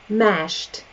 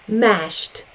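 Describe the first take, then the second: No difference in how they are said.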